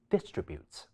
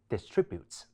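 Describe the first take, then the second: First: The stress is on the first syllable. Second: The stress is on the second syllable. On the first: "英式發音亦可以將重音放喺第一音節" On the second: "將重音放喺第二音節"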